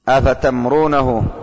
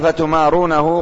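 First: The m carries no vowel at all. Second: The m is followed by a long a vowel.

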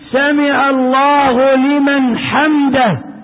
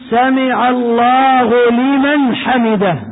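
First: An m sound is said with no following vowel. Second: Each m sound keeps its short following vowel. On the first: The speaker calls it wrong. "بسكون الميم، وهذا غلط" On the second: The speaker calls it right. "وإنما الصواب أن يقول"

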